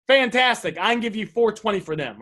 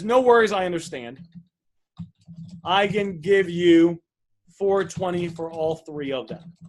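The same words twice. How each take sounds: First: Said in the usual way. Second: Slow, deliberate offer with each number spaced out; slow clear offer. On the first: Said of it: "we're not sure". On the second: Shown as a demonstration. Coach showing a seller how to make a clear offer, slow and deliberate. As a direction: spell out the number slowly so nothing is unclear. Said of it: "So what we wanna say is".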